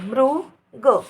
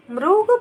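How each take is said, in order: First: मृग drawn out slowly, syllable by syllable; slow careful pronunciation. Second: Said in the usual way. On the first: Shown as a demonstration. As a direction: spell out मृग slowly for the class. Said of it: "मृग बन जाता है".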